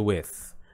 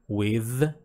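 First: The final th sound is voiceless, without vibration. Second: The final th sound is voiced, with vibration. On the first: "o T H que não vibra" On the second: "o T H que vibra"

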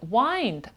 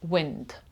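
First: The vowel sounds like the word 'eye'. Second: The vowel is a short 'i' sound. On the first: The speaker calls it wrong. "Не wind" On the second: The speaker calls it right. "а wind"

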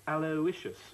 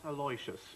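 First: The name is said the standard way. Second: The name is said the common Singaporean way. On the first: The speaker calls it right. "the correct pronunciation of your son's name is Aloysius" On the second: The speaker calls it wrong. "not Aloysius. ... It is a common mistake made by Singaporeans"

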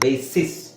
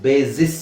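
First: The middle consonant is a hissing s sound. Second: The middle consonant is a buzzing z sound. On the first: The speaker calls it right. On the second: The speaker calls it wrong.

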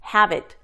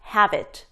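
First: The two words are linked as one. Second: The same.

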